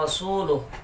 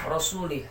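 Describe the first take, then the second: First: The vowel before the final h is u. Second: The vowel before the final h is i. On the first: It starts a new clause about the Messenger. The speaker calls it right. "Sedangkan di Al-Quran" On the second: It wrongly makes Allah disown the Messenger too. The speaker calls it wrong. "dengan baris khafat, baris di bawah"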